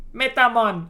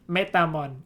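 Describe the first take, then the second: First: "Metamon" loud and high with a jokey Jamaican lilt; bad Jamaican accent. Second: Laughing. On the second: Pretend. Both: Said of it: "in a bad Jamaican accent".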